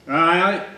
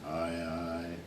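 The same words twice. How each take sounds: First: "Aye, aye" called out high, rising; loud, high "Aye, aye". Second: Said in the usual way. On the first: Acted. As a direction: cry "Aye, aye" sharply upward. Two contrasting takes opening the poem.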